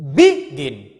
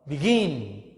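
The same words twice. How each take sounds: First: The stress is on the first syllable. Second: The stress is on the second syllable. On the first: The speaker calls it wrong. "You cannot say" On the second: The speaker calls it right. "So stress in the second syllable"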